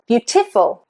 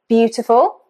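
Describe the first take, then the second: First: The stress is on a later syllable. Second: The stress is on the first syllable. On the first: The speaker calls it wrong. "let's try on another syllable ... Just sounds strange" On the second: The speaker calls it right. "the first, fine"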